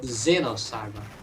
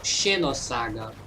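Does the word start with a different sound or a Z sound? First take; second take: Z sound; different sound. First: The word starts with a Z sound. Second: The word starts with a non-Z sound. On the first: This is how it is said in English. "With the Z sound" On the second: This is how it is said in Brazil. "Here in Brazil, we call"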